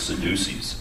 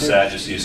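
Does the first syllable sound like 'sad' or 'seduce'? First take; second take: seduce; sad. First: The first syllable sounds like 'seduce'. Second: The first syllable sounds like 'sad'. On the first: The speaker calls it wrong. "I thought it was Sadducees" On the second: The speaker calls it right. "Instead of Sadducees"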